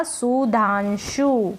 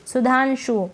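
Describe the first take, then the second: First: सुधांशु in slow, stretched syllables, su-dhaan-shuu; sounded out slowly. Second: Said in the usual way. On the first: Shown as a demonstration. Teacher reading back the spelled name, सुधांशु slowly syllable by syllable. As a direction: draw out each syllable of सुधांशु.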